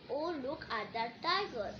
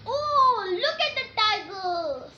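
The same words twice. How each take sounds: First: Said in the usual way. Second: Much higher and louder, thrilled cry; excited exclamation. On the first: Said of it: "you don't have to read". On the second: Shown as a demonstration. Teacher modelling an exclamation for the class, excited. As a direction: gasp it out as if you just spotted it. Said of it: "Same expressions".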